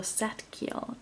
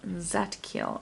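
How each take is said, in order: First: Zadkiel said with an "eh", like SET-keel; unsure pronunciation. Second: Zadkiel said with a flat "a", like ZAT-keel; retry Zadkiel as "ZAT-kil"; second-guessed pronunciation. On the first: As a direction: try Zadkiel as "SET-kil". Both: Real, not acted. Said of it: "I don't know".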